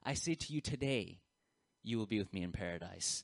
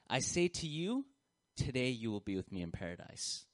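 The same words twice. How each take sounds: First: The pause comes after the word 'today'. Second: The pause comes before the word 'today'. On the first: The promise is made today. "You change the location of that punctuation" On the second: Being in paradise happens today. "Here's the way that we usually interpret this passage"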